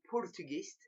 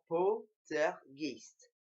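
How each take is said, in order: First: It is said with an American accent. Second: It is said with a Spanish accent. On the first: "j'avais l'accent américain" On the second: "maintenant j'ai l'accent espagnol"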